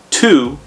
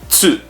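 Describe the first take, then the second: First: The syllable begins with a plain t sound. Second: The syllable begins with a ts sound. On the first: The speaker calls it wrong. "It's not Tu" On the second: The speaker calls it right. "make a T sound and an S sound at the same, so or same time"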